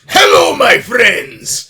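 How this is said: It is said with a foreign accent.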